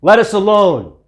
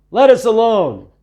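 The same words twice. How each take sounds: First: High, loud cry of a demon; a spirit shrieking to be left alone; screaming demon. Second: High, loud, strange demon cry. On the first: Man with unclean spirit crying out at Jesus, loud high cry. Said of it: "He screamed out". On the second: Demon in a churchgoer crying out at Jesus, high eerie cry. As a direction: shriek it like something unclean inside. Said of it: "crying out". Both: A narrator's reading.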